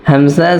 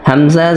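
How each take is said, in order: The two takes are said the same way.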